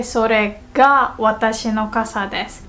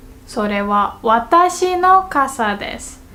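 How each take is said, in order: First: Teacher's demo stressing それ before が; stress on それが. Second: 私の raised after それは; teacher's demo emphasizing 私の; stress on 私の. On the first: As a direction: put the weight on それが. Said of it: "put emphasis on is the word". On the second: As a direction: lean on 私の, the part after は. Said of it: "what comes after the wa particle". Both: Shown as a demonstration.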